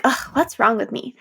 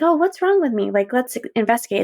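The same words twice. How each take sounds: First: A mildly fed-up "Ugh, what's wrong with me?", asked with no wish for an answer; annoyed self-question. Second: Curious self-question. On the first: Waking up heavy and scolding herself, mildly fed-up. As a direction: brush the feeling off with a small groan. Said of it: "I'm like". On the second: Checking in on herself kindly, with light curiosity. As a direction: wonder aloud, really wanting the answer. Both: Retold or imitated.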